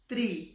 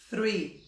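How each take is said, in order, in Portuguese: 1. A palavra começa com um som de t forte. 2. A palavra começa com um som de th suave. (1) "Tem gente que fala one, two, three. Three é árvore" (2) "Todo mundo acha que sabe falar"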